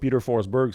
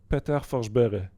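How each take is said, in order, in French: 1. Le nom se dit avec des sons à l'anglaise. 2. Le nom se dit avec des sons à la suédoise. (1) "ça se prononce pas de même pantoute" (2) "Qu'est-ce qu'on devrait dire?"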